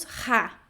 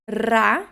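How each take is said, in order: First: "ra" said ha, r as an h; wrong aspirated R. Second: "Ra" loud with a rolled r; trilled R. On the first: Teacher shows what Italian avoids, aspirated R demo. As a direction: breathe the r of "ra" like h. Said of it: "nós não pronunciamos ra". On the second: Teacher shows the initial R, loud trilled demo. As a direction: hit "Ra" with a tongue-tip trill. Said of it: "R no início de palavra". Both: Shown as a demonstration.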